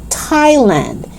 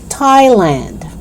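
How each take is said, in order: No difference in how they are said.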